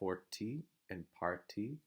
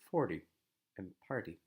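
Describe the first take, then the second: First: The T is pronounced as a full, clear T. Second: The T is pronounced as a quick, weak flap. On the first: The speaker calls it wrong. "That would sound kind of strange by American English standards" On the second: The speaker calls it right. "this weak flap T sound or weak T sound"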